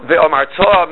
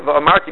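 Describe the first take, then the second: First: "ve'omarta" with the final "ta" stressed, slowly; stress on last syllable. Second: "Ve'omarti" with the accent on "mar"; stress before the last syllable. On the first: Teacher showing the command meaning, last syllable stressed. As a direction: land the accent on the "ta" of "ve'omarta". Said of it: "move it down to the last". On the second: Teacher showing the past meaning, next-to-last syllable stressed. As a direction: stress "mar" in "Ve'omarti", leaving the ending light. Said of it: "That's two different words". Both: Shown as a demonstration.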